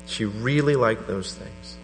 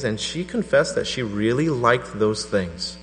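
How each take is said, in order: First: Really stressed, slow and soft; slow, soft repeat leaning on really. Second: Said in the usual way. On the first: Shown as a demonstration. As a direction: linger on really, slowly.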